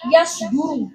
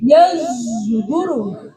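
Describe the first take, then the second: First: The middle consonant is a plain s sound. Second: The middle consonant is mixed with a z sound.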